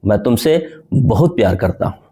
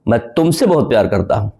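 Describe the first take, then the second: First: The word बहुत carries the stress. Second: The word तुमसे carries the stress. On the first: The amount of love is very great. "बहुत प्यार करने पर मैंने जोड़ दिया।" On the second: This person is loved and no one else is. "तुमसे पे मैंने जोड़ दिया"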